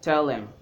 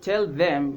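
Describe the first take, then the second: First: The word 'them' is reduced to 'em'. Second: The word 'them' is said in full. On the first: "a contracted form of tell them" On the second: "instead of saying tell them"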